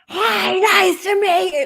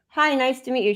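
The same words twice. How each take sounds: First: It is said very loudly, like through a bullhorn. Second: It is said at a normal, conversational volume.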